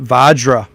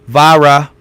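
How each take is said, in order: First: The middle consonant is a J sound. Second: The middle consonant is a breathy H sound. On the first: The speaker calls it right. "they called it Vajra with a J" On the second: The speaker calls it wrong. "like the J and the H, like Spanish"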